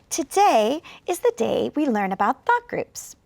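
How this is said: It is read with pauses between phrases. The speaker calls it right. "number two is the one where I used thought groups"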